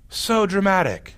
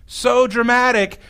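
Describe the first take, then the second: First: Said in the usual way. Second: Slower, with a hammed-up sigh of "So dramatic."; mock dramatic. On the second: Shown as a demonstration. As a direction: drag out "So dramatic." as if rolling your eyes.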